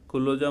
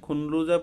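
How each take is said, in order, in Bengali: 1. মাঝের ধ্বনিটি দ্বিত্ব l হিসেবে উচ্চারিত হয়। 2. মাঝের ধ্বনিটি n এবং তারপর l হিসেবে উচ্চারিত হয়। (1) "এটা লয় ল উচ্চারণ হয় তাহলে হবে খুল্লুজা" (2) "এখানে খুনলুজা পড়ি নাই"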